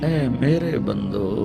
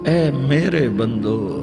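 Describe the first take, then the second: The two takes are said the same way.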